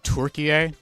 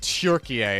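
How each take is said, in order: First: The word is said lightly without pressing. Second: The word is pressed hard and forcefully. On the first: "Is it more like Turkie?" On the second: "you don't have to press ... too hard on it. So it's not like Turkie"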